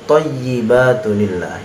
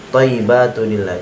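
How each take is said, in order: First: The y sound is held and doubled. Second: The y sound is short and single. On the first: The speaker calls it right. "Ya-nya di situ ada tasydidnya, bukan disukunkan" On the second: The speaker calls it wrong. "itu salah"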